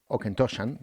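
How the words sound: The name is pronounced the English way. "en inglés se pronunciaría"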